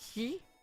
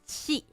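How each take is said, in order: First: The syllable begins with an unaspirated 'j' sound. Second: The syllable begins with an aspirated 'ch' sound. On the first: The speaker calls it right. "It's Ji" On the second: The speaker calls it wrong. "but he says Qi, people don't really say it like that"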